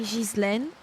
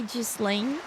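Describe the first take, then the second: First: The name is said with a French pronunciation. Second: The name is said with an English pronunciation. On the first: "in French we say Ghislaine" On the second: "in English you say Ghislaine"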